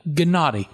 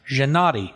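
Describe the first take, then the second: First: The name begins with a hard g sound. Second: The name begins with a soft zh sound. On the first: "so it could be a hard g" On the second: "it's pronounced with a soft zh"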